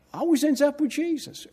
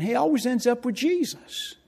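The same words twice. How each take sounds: First: Always pitched higher still with a rising end; stress on Always. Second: Always lifted high with a rising end; stress on always. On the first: Preacher echoing the student's words, Always hit hard. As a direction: hit Always harder in the repeat. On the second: Preacher repeating a student's praise, always leaned on. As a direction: lean on always, rising at the close. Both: Shown as a demonstration.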